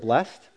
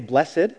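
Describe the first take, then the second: First: The word is said as one syllable. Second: The word is said as two syllables. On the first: It is the ordinary everyday word. "in almost any other context, I just say the word blessed" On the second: It is the solemn scriptural reading. "when I read the Beatitudes, I say blessed"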